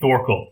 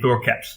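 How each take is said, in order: First: The name ends with a plain L sound. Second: The name ends with an L and T together. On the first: The speaker calls it wrong. "I keep saying Thorkel" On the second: The speaker calls it right. "it's supposed to be Thorket"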